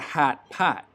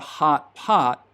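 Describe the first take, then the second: First: The vowel is fronted, close to hat. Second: The vowel is open and far back. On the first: "So in Chicago, it's a" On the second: "it's not a"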